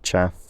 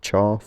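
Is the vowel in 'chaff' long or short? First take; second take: short; long. First: The vowel is a short 'a' sound. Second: The vowel is a long 'ah' sound. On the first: This is how most people with this accent actually say it. "but I pronounce it chaff" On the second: This is the form the regular sound change predicts. "would be pronounced chaff"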